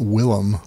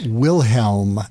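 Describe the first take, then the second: First: The name has no h sound in the middle. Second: The name has an h sound in the middle. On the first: The speaker calls it wrong. "not Willem" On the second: The speaker calls it right. "it's Wilhelm, H E L M"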